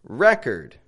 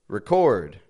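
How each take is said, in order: First: The stress falls on the first syllable. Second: The stress falls on the second syllable. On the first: It is a noun: a written account. "The noun, however, is stressed on the first syllable" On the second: It is a verb: to capture something. "the verb is stressed on the second syllable"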